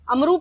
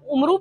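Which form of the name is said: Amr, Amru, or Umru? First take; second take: Amru; Umru. First: It starts with a and ends with u. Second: It starts with u and ends with u. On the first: This is another guess some readers make. "इसको शायद अमरू पढ़ते हैं" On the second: This is how it looks when read from the letters. "ये देखने में तो आप उमरू पढ़ते हैं"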